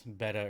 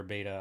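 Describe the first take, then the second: First: "beta" said BET-uh; short E in "beta", like the fish; short-e pronunciation. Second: "beta" said BAY-tuh; long A in "beta"; long-a pronunciation. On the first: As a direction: say "beta" to rhyme with "feta". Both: Shown as a demonstration. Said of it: "I can't even pronounce".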